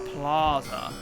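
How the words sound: It is said with an upper-class pronunciation. The speaker is educated and cultured. "The upper classes refer to it as the plaza"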